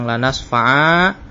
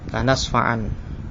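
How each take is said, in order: First: The phrase ends with a long vowel. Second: The phrase ends with an n sound. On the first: The reading stops at this word. "jika diwaqafkan, maka nunnya ini diganti dengan alif. Kita baca panjang" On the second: The reading continues without a stop. "Jika dibaca wasal, yakni dilanjutkan, maka nunnya dibaca"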